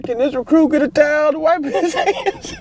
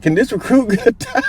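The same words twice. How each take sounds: First: Pitched far up, cracking with laughter; can barely get the words out for laughing; very high laughing plea. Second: Pitched way up through laughter; a giggling recruit barely asking; high laughing plea. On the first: Recruit asking for a towel to wipe his hands, squeaky laughing. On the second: Recruit asking the sergeant for a towel, high and laughing. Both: Retold or imitated.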